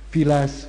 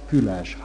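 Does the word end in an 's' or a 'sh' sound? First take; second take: s; sh. First: It ends in an s sound. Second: It ends in a sh sound. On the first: This is the Csángó pronunciation. "csángót magyart mondom" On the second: This is the standard Hungarian pronunciation. "csángót magyart mondom"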